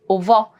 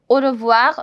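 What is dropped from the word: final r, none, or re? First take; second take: re; none. First: The 're' syllable is left out. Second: Every sound of the word is pronounced. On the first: "Sometimes people also drop R E" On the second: "I'm pronouncing the complete word au revoir"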